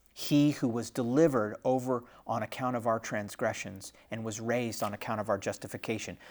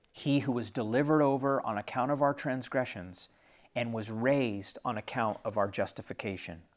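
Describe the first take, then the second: The two takes are said the same way.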